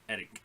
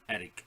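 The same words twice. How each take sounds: Both takes have the same delivery.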